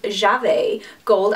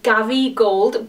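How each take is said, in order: First: The name starts with a J sound. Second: The name starts with a hard G sound. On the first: This is the name's actual pronunciation. The speaker calls it right. "it's actually pronounced" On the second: This is how the spelling seems to read. The speaker calls it wrong. "it looks like it should be pronounced"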